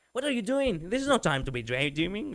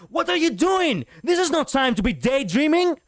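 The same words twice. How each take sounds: First: Mild, casual scolding; soft-edged telling-off without panic; everyday scolding. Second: High, loud, frustrated shout; general's command full of anger and frustration; panicked, angry command. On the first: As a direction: scold lightly, like on a normal Sunday. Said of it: "she's scolding her on a normal Sunday". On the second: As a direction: shout them awake in panic, pitched way up. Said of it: "It should have gone like this". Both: Shown as a demonstration.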